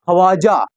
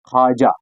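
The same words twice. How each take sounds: First: ख्वाजा with the w sounded, khwaaja; wrong pronunciation. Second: ख्वाजा said khaaja, waw silent; right pronunciation. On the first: Teacher showing students the wrong reading of the name. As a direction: say ख्वाजा voicing the waw, as the mistake. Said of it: "लेकिन गलत है।". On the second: Teacher giving students the correct reading, silent waw. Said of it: "वाव को हमें काटना है तो आएगा ख्वाजा". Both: Shown as a demonstration.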